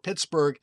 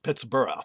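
First: The ending is said the present-day American way. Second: The ending is said the Scottish way. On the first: This is how people say it today. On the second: This is how it was probably said originally.

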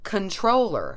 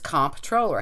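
First: The first syllable is said with an n sound. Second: The first syllable is said with an mp sound. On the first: The speaker calls it right. "But it's actually pronounced controller, as in control" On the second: The speaker calls it wrong. "most people say, including us. I mean, you see it, clearly it's comptroller"

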